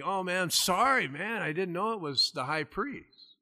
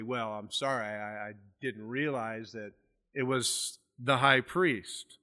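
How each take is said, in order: First: Higher-pitched, casual apology; mock-innocent apology. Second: Lower, softer, understated sarcasm; sarcastic apology. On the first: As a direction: lightly act out an honest mistake. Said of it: "he's kinda squinting, you know, and think". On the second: Retold or imitated.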